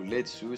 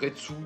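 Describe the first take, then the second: First: The name is said with a Japanese-style sound. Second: The name is said with a French-style sound.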